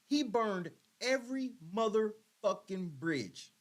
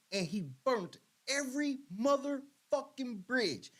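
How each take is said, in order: First: He burned every spoken slowly and weighed; slow repeat. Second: Every dragged out slow; slow emphatic. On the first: Repeating it to the chat, slow and weighty. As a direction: hammer it home slowly. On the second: Repeating to the audience, slow and emphatic. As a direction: lean hard on every. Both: Real, not acted.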